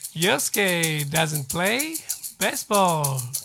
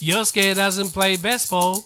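First: The sentence is said at a slower pace. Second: The sentence is said at a faster pace. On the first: "これいいね。" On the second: "ちょっと早くします。"

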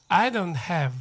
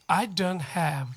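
Both takes have the same delivery.

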